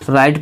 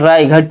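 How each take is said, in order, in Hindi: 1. 'gh' मौन है, इसलिए एक ही अक्षर बनता है। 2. 'gh' उच्चारित होता है, यह एक 'gh' अक्षर है। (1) "आर I जी S T को राइट पढ़ेंगे" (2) "तो हम राय घट पढ़ते वो गलत हो जाता"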